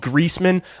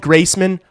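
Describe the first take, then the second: First: The first syllable sounds like 'grease'. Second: The first syllable sounds like 'grace'. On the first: "I might care about that one" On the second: "If you call me Graceman, I don't care"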